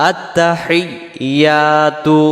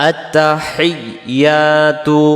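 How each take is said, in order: No difference in how they are said.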